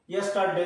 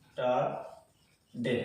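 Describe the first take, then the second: First: Said in the usual way. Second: "yesterday" very slow, low and soft, with long gaps; syllable by syllable. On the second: Shown as a demonstration. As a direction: break "yesterday" into three widely spaced beats. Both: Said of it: "এখানে কটা syllable আছে".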